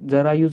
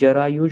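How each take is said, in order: First: The first consonant is dental, not palatal. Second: The first consonant is palatal, with a y glide. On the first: The speaker calls it wrong. "जरायुज नाही म्हणत" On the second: The speaker calls it right. "आपण इथं जरायुज म्हणतो. म्हणजे ज अधिक य"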